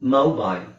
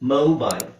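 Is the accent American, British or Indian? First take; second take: British; American. First: The word is said with a British accent. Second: The word is said with an American accent. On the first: "British pronunciation ಅಲ್ಲಿ ನಿಮಗೆ ಔ ಮೌ ಮೊಬೈಲ್ ಅಂತ ಬರುತ್ತೆ" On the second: "American pronunciation ಅಲ್ಲಿ ನಿಮಗೆ ಓ ಅಂತ ಬರುತ್ತೆ"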